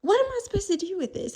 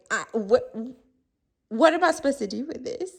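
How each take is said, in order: First: Higher, faster baffled repeat; a rising, quicker what am I supposed to do; mock baffled diner. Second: Confused diner. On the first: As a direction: throw it again, more incredulous. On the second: Retold or imitated. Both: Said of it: "you're like".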